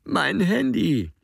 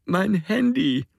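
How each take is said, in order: First: Slow, high tearful plea; Alex crying, hand stretched out; whimpering again. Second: Slow, much higher whimper; Alex crying, reaching for his phone. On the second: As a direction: plead through tears. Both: A narrator's reading. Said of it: "wimmert Alex".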